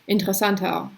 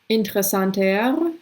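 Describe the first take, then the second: First: The final R is softened into a vowel. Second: The final R is pronounced clearly and strongly. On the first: "it's more like" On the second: "I am emphasizing that R, you know, so you can hear it"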